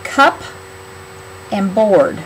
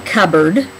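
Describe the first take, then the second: First: Cup and board said as two separate words; split into parts. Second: Cupboard said as "kubberd", the p silent; natural cupboard. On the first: Teacher breaks cupboard into its two words for spelling. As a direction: sound out cup, then board, apart. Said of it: "So start out with, it's like cup and board". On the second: Teacher models cupboard to the class the natural way, p silent. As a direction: say cupboard the everyday way, p swallowed. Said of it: "you don't hear the first word very much". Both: Shown as a demonstration.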